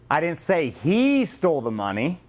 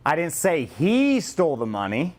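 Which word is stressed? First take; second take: he; he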